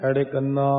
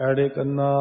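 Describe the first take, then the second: The two takes are said the same way.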